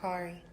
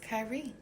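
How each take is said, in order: First: The first vowel sounds like the one in 'car'. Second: The first vowel sounds like the one in 'sky'. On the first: The speaker calls it wrong. "It's not Kari" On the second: The speaker calls it right. "his name is Kyrie"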